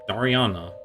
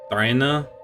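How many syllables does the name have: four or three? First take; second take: four; three. First: The name is said with four syllables. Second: The name is said with three syllables. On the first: The speaker calls it right. "it's Dariana" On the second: The speaker calls it wrong. "I've been pronouncing it a bit differently before"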